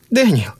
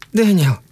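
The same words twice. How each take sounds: First: High, wary cry of his name; more alarmed. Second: High, urgent call of his name; wife calling out to her husband. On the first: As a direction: call out in growing alarm. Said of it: "ещё более настороженно произнесла Кэрол". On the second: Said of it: "позвала Кэрол". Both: A narrator's reading.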